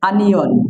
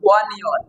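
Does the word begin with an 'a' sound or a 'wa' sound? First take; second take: a; wa. First: The word begins with a plain 'a' sound. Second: The word begins with a 'wa' sound. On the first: The speaker calls it right. "আসলে এটা সঠিক উচ্চারণ হবে আনিয়ন।" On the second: The speaker calls it wrong. "এটা হচ্ছে ওয়ানিয়ন বলি"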